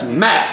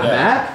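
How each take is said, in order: First: The pitch falls at the end, like a statement. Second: The pitch rises at the end, like a question. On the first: The name is stated with certainty. The speaker calls it right. "That's Matt" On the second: The name is offered uncertainly, as if asking. The speaker calls it wrong. "Why'd you ask that like a question?"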